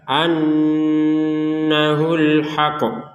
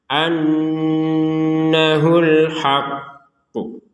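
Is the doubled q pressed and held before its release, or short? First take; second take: short; pressed. First: The doubled q is short, not pressed first. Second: The doubled q is pressed, then released with echo. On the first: The speaker calls it wrong. "Jangan sekedar annahul haqqu" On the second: The speaker calls it right. "tasydidnya dulu dibaca baru pantulannya"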